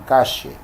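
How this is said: It is said with an Argentine accent. "los argentinos dirían"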